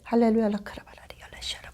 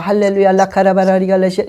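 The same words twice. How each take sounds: First: It is spoken softly at a low volume. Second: It is spoken aloud at a moderate volume. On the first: "조그맣게" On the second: "그냥 적당하게 하잖아요"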